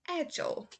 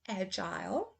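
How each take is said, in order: First: The last syllable is a weak 'ul' sound. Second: The last syllable rhymes with 'aisle'. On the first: "then I will go over to the U S pronunciation" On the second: "first I will say the U K pronunciation"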